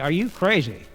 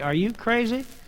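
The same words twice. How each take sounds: First: It is said with a statement-like tune. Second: It is said with a questioning tune. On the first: The speaker is asserting that the listener is crazy. "that could be they mean you are" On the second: The speaker is asking whether the listener is crazy. "that's a question"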